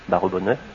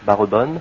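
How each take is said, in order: First: The word is spoken in four syllables. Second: The word is spoken in three syllables. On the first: "ou même quatre" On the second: "en trois"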